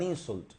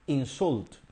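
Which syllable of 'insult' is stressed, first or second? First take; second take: first; second. First: The stress is on the first syllable. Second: The stress is on the second syllable. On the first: It is a noun meaning an abusive remark. "The stress is on the first syllable" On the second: It is a verb meaning to speak abusively to someone. "el estrés está en la segunda sílaba"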